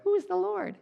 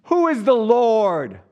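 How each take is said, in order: First: Very high, squeaky and comic; silly squeaky voice. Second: Loud, higher, slow and booming; echoing palace boom. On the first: Preacher mocking how Pharaoh surely didn't sound. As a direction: squeak it like a cartoon. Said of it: "I don't think he went". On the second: Preacher acting Pharaoh booming in his echoing palace. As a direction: proclaim it so it rings off palace walls. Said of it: "in this palace where everything echoes". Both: Retold or imitated.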